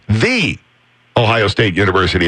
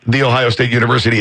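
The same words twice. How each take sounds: First: The first word has a long 'ee' vowel. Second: The first word has a short 'uh' vowel. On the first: The speaker calls it right. "the correct way ... get that V in there" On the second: The speaker calls it wrong. "It's not"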